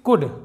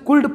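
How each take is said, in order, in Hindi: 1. इस शब्द का उच्चारण बिना किसी L की आवाज़ के होता है। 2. इस शब्द का उच्चारण L की साफ़ सुनाई देने वाली आवाज़ के साथ होता है।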